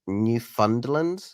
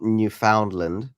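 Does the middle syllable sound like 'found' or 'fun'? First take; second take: fun; found. First: The middle syllable sounds like 'fun'. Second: The middle syllable sounds like 'found'. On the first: The speaker calls it right. "instead of found, you're saying fun" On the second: The speaker calls it wrong. "It is not Newfoundland, as I used to pronounce it"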